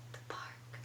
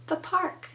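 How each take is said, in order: First: Very soft, voiceless whisper. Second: Said in the usual way. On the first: Shown as a demonstration. Teacher telling the puppet her place, whispering. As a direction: whisper it like a secret. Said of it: "or speak it".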